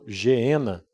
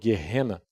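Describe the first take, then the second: First: The name is said in its everyday local form. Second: The name is said closer to its original form.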